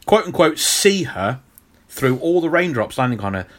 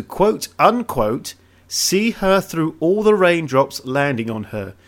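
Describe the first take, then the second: First: See punched, rest of the line light; stress on see. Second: See said lightly, other words hit; stress off see. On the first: Shown as a demonstration. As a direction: hit the word see hard. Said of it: "You wanna hit C". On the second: Real, not acted. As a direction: quote unquote slow, weight on the later words. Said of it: "You, you were hitting all the other words after".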